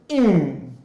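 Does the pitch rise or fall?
fall. The pitch falls.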